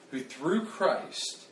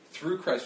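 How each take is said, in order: First: "through" drawn out slowly and stressed. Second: "through" repeated with a stressed fall. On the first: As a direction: lean hard on "through". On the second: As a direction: repeat "through Christ" pointedly. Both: Shown as a demonstration. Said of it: "don't, don't miss that".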